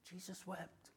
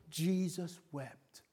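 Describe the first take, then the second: First: Dropped almost to a breath; hushed echo. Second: Said in the usual way. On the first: Real, not acted. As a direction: let it fall to a hush as if moved. Repeating for effect.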